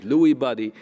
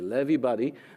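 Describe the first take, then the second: First: The name begins with a 'loo' sound. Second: The name begins with a 'lev' sound. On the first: This is how it is often said in the United States. The speaker calls it wrong. "Sometimes, you know, they pronounce it Lewy body" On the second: This is said to be the actual pronunciation. The speaker calls it right. "I've been told it's actually Levy body"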